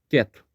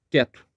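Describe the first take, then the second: No difference in how they are said.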